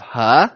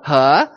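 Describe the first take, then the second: First: He starting low and rising. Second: Rising tone on He repeated. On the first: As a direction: lift He upward like a question. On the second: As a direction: slide He up. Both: Shown as a demonstration. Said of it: "You start at thirty and you go up to seventy".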